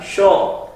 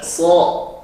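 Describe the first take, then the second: First: It starts with a hushing 'sh' sound. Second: It starts with a sharp hissing 's' sound. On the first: The speaker calls it wrong. "bukan sho" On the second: The speaker calls it right. "so bukan sho"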